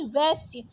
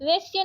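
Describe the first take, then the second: First: Said in the usual way. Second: वैश्य said "vesh-ya", closed e; wrong vowel. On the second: Shown as a demonstration. Teacher rejecting a spelling, वैश्य with plain e. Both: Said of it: "वैश्य नहीं".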